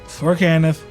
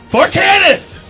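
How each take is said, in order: First: It is said flatly, with little energy. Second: It is said loudly, with lots of energy. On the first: The speaker calls it wrong. "You better say that with some fucking enthusiasm" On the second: The speaker calls it right. "say with some fucking enthusiasm"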